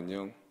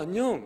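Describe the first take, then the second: First: It is said low and soft, without straining. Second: It is said high and forceful, straining the voice. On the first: The speaker calls it right. "이렇게 이제 해야 된다는 거죠. 최대한 목에 힘을 주면 안 된다" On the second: The speaker calls it wrong. "이렇게 하면 안 되고"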